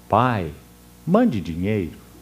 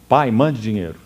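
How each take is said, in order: First: It is read in a gentle, tender tone. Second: It is read in a harsh, demanding tone.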